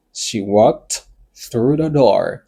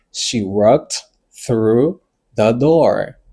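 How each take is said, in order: First: Slow, with the last words joined up; slow model. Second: Word by word, gaps between the words; very slow model. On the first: Teacher repeating an example for learners, slow and more connected. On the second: Teacher giving learners an example, very slow and separated. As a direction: dictate it very slowly for learners. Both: Shown as a demonstration.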